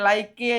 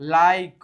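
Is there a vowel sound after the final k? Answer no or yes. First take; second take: yes; no. First: An extra vowel is sounded after the final k. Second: The word ends on the k with no vowel. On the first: The speaker calls it wrong. "લાઈકી કે લાઈકે એવું ન થાય" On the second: The speaker calls it right. "ઈ silent છે"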